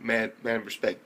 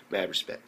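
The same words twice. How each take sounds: First: Said in the usual way. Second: Voiceless murmured mad respect; whispered respect. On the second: Shown as a demonstration. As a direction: breathe it as an awed aside.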